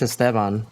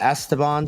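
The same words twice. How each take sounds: First: The name is pronounced the Spanish way. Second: The name is pronounced the anglicized English way. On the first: This is the name's own pronunciation. "It's Esteban" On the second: This is how friends usually say it. "all my Y friends say"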